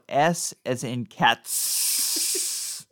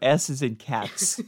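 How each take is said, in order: First: It is said with emphasis on cats. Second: It is said flatly, without emphasis.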